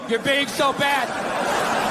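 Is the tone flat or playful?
flat. It is read out in a flat tone.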